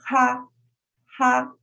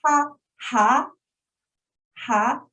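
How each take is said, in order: First: Ha held high and level; teacher modelling the flat first tone. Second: Ha rising upward in pitch; teacher modelling the rising second tone. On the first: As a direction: keep ha high and flat all through. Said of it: "Start high, stays there". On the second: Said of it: "number two is a rising tone". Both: Shown as a demonstration.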